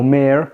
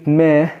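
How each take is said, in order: First: "مير" American-style, R sounded; American accent. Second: "ما" British-style, R dropped; British accent. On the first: Teacher comparing both forms, American-accented "مير". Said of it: "ممكن ننطقها بالامريكان". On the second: Teacher comparing both forms, British-accented "ما". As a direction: open vowel ending on "ما", British accent. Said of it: "British specific". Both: Shown as a demonstration.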